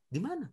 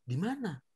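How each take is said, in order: First: Questioning face, rising tune. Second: Said in the usual way. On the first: Shown as a demonstration. Teacher shows children the questioning expression, rising tune. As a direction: di mana? asked with a rising questioning tune, softer. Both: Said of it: "Tapi ingat ekspresi ya".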